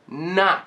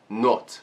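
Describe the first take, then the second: First: The vowel sounds like an open 'ah'. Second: The vowel sounds like a rounded 'o'. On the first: The speaker calls it right. "I'm actually pronouncing it almost like an open A" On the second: The speaker calls it wrong. "with the same O as in Portuguese"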